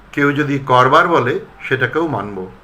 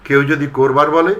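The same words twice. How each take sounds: First: করবার said kɔrbar with an open ɔ; ɔ-sound version. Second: করবার said korbar with an o; o-sound version. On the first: (করবার অ-কারান্ত) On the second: (করবার ও-কারান্ত) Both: Shown as a demonstration. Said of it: "দুরকম উচ্চারণ".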